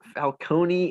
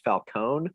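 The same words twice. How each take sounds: First: The name is said in an Italian way. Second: The name is said in an English way. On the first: "closer to like the Italian pronunciation" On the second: "just Falcone"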